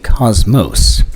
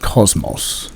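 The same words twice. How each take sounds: First: The word has an American pronunciation. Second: The word has a British pronunciation. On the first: "we Yanks would say" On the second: "as the British would say"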